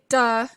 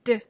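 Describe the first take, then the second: First: A vowel sound follows the consonant. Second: The consonant is short with no vowel after. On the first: The speaker calls it wrong. "You don't say duh" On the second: The speaker calls it right. "it's d"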